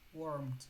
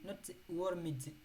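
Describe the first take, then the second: First: The ending is a plain d sound. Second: The ending is said as an extra syllable. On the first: The speaker calls it right. "it is like M and D" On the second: The speaker calls it wrong. "Only D, not warmed"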